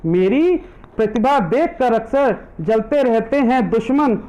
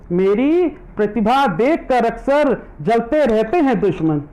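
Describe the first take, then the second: No difference in how they are said.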